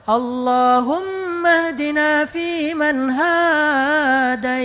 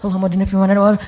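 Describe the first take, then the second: First: It is said slowly and relaxed. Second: It is said in a rush.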